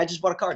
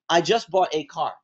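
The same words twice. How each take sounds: First: The word 'a' is said as a reduced 'uh'. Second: The word 'a' is said as a full 'ay'. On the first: It sounds like natural casual talk. The speaker calls it right. "instead of saying" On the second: It sounds like careful reading aloud. The speaker calls it wrong. "When we're reading a letter, and we come across the word A, we tend to say"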